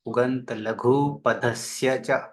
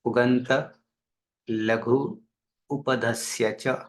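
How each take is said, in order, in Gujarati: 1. શબ્દો જોડાઈને બોલાય છે, સ્વરો ભળી જાય છે. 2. શબ્દો અલગ બોલાય છે, જોડ્યા વિના.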